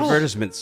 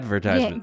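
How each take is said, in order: First: It is pronounced the British way. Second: It is pronounced the American way.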